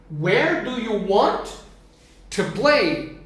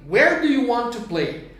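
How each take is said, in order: First: Slow, drawn-out English model. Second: Said in the usual way. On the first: Shown as a demonstration. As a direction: say "Where do you want to play" slowly for students. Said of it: "teacher builds the question slowly". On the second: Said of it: "teacher repeats the question at normal speed".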